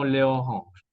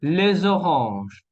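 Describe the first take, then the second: First: Les oranges with silent s; les, then oranges, unlinked; missing liaison. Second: Les oranges linked with a z; liaison. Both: Shown as a demonstration. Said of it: "y no les oranges".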